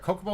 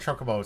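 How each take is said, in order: First: The word begins with a hard k sound. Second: The word begins with a ch sound. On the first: "C O if it's code" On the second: "C H if, if it's Cho for you"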